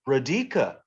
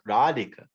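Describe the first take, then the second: First: The second syllable is stressed. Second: The second syllable is not stressed. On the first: The speaker calls it wrong. "if we've never heard Radhika before ... we would probably say Radhika" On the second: The speaker calls it right. "so we know okay, it's Radhika"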